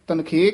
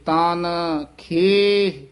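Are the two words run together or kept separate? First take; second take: together; separate. First: The two words are run together as one. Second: The two words are kept clearly separate. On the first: The speaker calls it wrong. "ਦੋਹਾਂ ਪਦਾਂ ਨੂੰ ਇਕੱਠਾ ਕਰ ਦਿੰਦੇ ਹਨ" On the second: The speaker calls it right. "ਨਖੇਰ ਕੇ ਪੜ੍ਹੇ ਜਾਣਗੇ ਤਾਂ ਇਹ ਸ਼ੁੱਧ ਉਚਾਰਨ ਹੋਏਗਾ"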